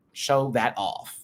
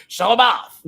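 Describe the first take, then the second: First: Said in the usual way. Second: Shouted hype. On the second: Real, not acted.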